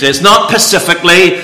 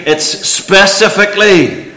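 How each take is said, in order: First: "specifically" said wrong as "pacifically"; child's mistake on "specifically"; mispronounced specifically. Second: "specifically" said properly, slow and careful; careful corrected "specifically". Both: Shown as a demonstration.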